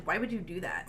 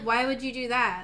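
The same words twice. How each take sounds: First: Soft, low disapproval; disapproving. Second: Puzzled question; confused. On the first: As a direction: say it quietly, disapproving. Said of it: "I read it more as". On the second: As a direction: ask it in honest confusion. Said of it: "I felt it was more like". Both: Shown as a demonstration.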